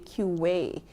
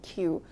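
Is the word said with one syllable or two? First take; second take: two; one. First: The word is said with an extra second syllable. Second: The word is said as one syllable.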